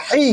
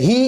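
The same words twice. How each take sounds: First: "হি" with a tight h from the throat; the other h. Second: "হি" with a light h and long i; one of two h's. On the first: Teacher contrasts two h letters, tight throat h. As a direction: constrict the throat for the "হ" of "হি". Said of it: "সেটা হলো হি". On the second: Teacher contrasts two h letters, light h. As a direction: let the "হ" of "হি" out lightly. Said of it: "এটা হলো হি". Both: Shown as a demonstration.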